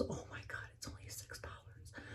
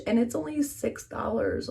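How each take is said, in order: First: Hushed, amazed whisper; awed whisper. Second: Said in the usual way. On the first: Real, not acted. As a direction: breathe it like a secret. Whispered repeat of price.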